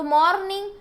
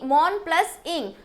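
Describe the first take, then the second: First: Said in the usual way. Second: "mourn plus इंग" said as two separate parts; syllable breakdown. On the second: Shown as a demonstration. Teacher showing children the parts of a word, syllable breakdown. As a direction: split "mourn" from "इंग", with "plus" between them. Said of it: "एक vowel ध्वनि सुनाई पड़ती हो".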